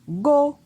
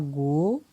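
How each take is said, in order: First: The syllable is said on a high tone. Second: The syllable is said on a rising tone. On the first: "Un ton haut" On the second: "Un ton montant"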